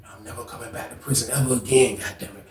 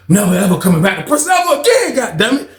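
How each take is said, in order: First: Muttered vow. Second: Laughing vow. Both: Retold or imitated. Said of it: "I'm standing back looking like".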